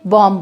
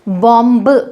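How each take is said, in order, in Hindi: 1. अंतिम b ध्वनि का उच्चारण नहीं होता। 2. अंतिम b ध्वनि का उच्चारण होता है। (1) "एम के बाद जब बी आता है तब बी का उच्चारण नहीं होता" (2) "इसे बॉम्ब नहीं बोला जाएगा"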